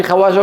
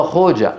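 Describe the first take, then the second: First: خواجة said khawaja, with w and long aa; wrong reading rejected. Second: خوجة said khoja, with a long o; correct original pronunciation. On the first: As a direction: read خواجة as spelt, kha-waa-ja. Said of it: "لا في خواجة". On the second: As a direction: say خوجة in two syllables, kho-ja. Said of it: "وإنما هو خوجة". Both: Shown as a demonstration.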